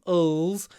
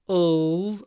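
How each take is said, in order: Both takes have the same delivery.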